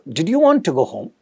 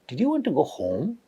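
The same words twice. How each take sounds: First: The pitch stays flat to the end. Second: The pitch rises on the final word. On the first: "There is no rise, fall, it's a flat" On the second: "I was trying to put a rising intonation at home"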